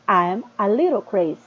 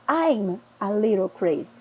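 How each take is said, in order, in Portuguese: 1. 'I am' é pronunciado como duas palavras separadas. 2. 'I am' é contraído em uma sílaba rápida. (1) "Olha a diferença" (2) "num diálogo ele se torna mais rápido, mais ágil"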